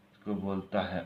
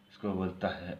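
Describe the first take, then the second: No difference in how they are said.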